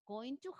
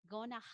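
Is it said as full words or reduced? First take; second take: full; reduced. First: Each word is said fully and separately. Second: The words are reduced and run together.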